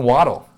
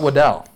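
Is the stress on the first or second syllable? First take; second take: first; second. First: The stress is on the first syllable. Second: The stress is on the second syllable. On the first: The speaker calls it right. "It's Jalen Waddle" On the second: The speaker calls it wrong. "It's not Waddell"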